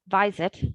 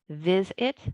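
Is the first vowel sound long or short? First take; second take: long; short. First: The first vowel is long. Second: The first vowel is short. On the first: The speaker calls it wrong. "Those don't sound correct" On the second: The speaker calls it right. "The vowel will have a short sound"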